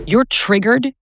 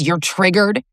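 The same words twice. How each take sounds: First: Mocking dismissal. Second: Said in the usual way. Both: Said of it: "that phrase".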